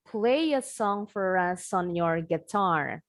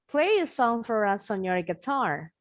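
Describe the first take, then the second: First: The sentence is spoken slowly. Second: The sentence is spoken fast. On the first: "Pelan-pelan aja dulu" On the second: "Sekarang tinggal kita cepetin"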